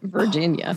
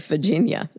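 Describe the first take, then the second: First: It is said plainly without a drawl. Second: It is said with a Southern drawl. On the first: "instead of Virginia" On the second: "I hear more of a drawl coming out. ... I will say Virginia"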